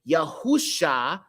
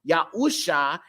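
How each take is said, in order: First: The consonant before the last vowel is 'sh'. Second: The same.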